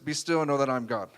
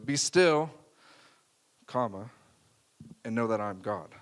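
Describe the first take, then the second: First: The words run together without a pause. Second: There is a pause after "Be still".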